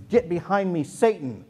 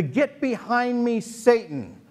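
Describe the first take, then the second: First: Said in the usual way. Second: High, slow, drawn-out "Get behind me, Satan"; mock-solemn rebuke, higher and slow; dramatic rebuke. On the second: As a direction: lean on "Get" high and slow like a grand scolding. Jesus rebuking Peter.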